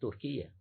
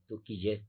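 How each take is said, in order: First: The name is pronounced the usual Spanish way. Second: The name is pronounced the way locals say it. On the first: The speaker calls it right. "Es Turquía" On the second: The speaker calls it wrong. "como lo pronuncian allá"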